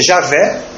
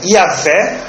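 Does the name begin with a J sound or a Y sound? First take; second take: J sound; Y sound. First: The name begins with a J sound. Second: The name begins with a Y sound.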